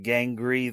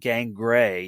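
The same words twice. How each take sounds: First: The second syllable does not sound like 'gray'. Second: The second syllable sounds like the word 'gray'. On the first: The speaker calls it wrong. "He never pronounced the name of Gangrey properly" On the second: The speaker calls it right. "like the color gray"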